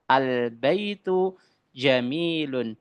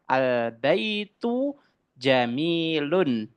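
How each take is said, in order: First: The last word ends with the sound -un. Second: The last word ends with the sound -un.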